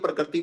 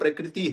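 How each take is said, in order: First: The word is slurred quickly in the flow of speech. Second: The word is pronounced carefully with its full sounds. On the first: The speaker calls it wrong. "मैं गलत बोलता हूँ वैसा" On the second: The speaker calls it right. "मेरे को ये तो पता है कि ये प्रकृति है"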